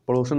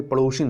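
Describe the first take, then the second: First: पड़ोसन said with a plain short o, no i; पड़ोसन as the wrong form; wrong pronunciation. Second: पड़ोसिन with a clear short i before n; correct pronunciation. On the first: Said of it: "नहीं". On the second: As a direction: stress the i in पड़ोसिन. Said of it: "पड़ोसिन है". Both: Shown as a demonstration.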